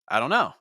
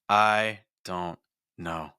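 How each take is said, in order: First: It is said as one unbroken chunk. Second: It is split into three chunks by pauses. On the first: "that is one thought group" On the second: "now I have three thought groups"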